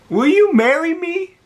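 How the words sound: It sounds desperate and pleading.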